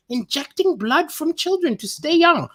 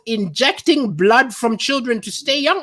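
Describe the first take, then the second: First: Put-on higher, disbelieving repeat of "Injecting blood from children to stay young"; incredulous repeat. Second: Said in the usual way. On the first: Shown as a demonstration. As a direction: say it back as if you can't believe it. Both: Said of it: "I've never heard of this".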